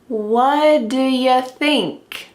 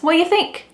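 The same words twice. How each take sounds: First: 'Do' is reduced to a quick 'duh' sound. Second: 'Do' is dropped completely from the question. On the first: "the final T on the question word what is cut off... it sounds like duh. What duh?" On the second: "Do is just gone. It's completely absent from the sentence"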